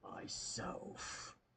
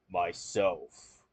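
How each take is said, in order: First: It is whispered very softly. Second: It is said very deep and low.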